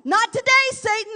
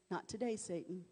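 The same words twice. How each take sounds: First: Much higher, louder defiant yell. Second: Quiet firm refusal. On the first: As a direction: shout it at Satan. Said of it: "we need to yell". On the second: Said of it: "when it's time to say". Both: Shown as a demonstration.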